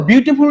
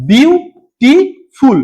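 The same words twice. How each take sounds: First: Said in the usual way. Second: beautiful very slowly in three separate beats; syllable by syllable. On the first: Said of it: "beautiful উচ্চারণ করার সময়". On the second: Shown as a demonstration. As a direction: say বিউ, টি, ফুল with a clear stop after each. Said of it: "তিনবার থামতে হচ্ছে".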